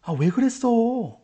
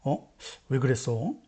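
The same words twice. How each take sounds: First: Higher, slow, drawn-out "아, 왜 그랬어?"; reproachful rhetorical question. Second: Low, soft, puzzled "어? 왜 그랬어?"; sincere question. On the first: Teacher demos an empty question, slow and reproachful. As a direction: sigh it out as a complaint, not a question. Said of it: "빈말일 때". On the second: Teacher demos a true question, soft and puzzled. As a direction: genuinely wonder why it happened. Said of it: "참말일 때". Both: Shown as a demonstration.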